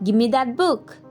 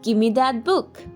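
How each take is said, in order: First: Give and me blend into one word, gimme. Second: The same.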